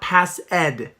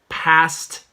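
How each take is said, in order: First: The ending is an extra ed syllable. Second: The ending is a single t sound. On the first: The speaker calls it wrong. "not pass ed" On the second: The speaker calls it right. "the ed is a T sound"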